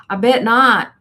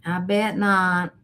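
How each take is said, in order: First: Louder, higher punchy I bet not; emphatic agreement. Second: Said in the usual way. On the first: Real, not acted. Answering a viewer's neck fan warning, emphatic and loud. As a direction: land it with a knowing laugh in the voice.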